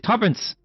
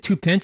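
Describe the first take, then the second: First: It is said as one blended, reduced word. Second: It is said as two full separate words. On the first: The speaker calls it right. "you say tuppence" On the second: The speaker calls it wrong. "you don't say two pence"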